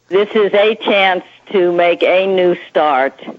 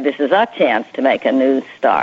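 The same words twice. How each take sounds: First: The word 'a' is said as 'ay'. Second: The word 'a' is said as 'uh'. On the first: "he mispronounces the letter A quite often" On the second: "and then in the next sentence, he'd say"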